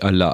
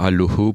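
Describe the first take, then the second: First: The vowels are pronounced as a. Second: The vowels are pronounced as o. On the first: This is the eastern Assyro-Chaldean pronunciation. "en vocalisant en A" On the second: This is the western Syriac pronunciation. "on va pro- vocaliser en haut"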